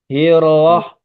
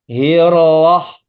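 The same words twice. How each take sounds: Both takes have the same delivery.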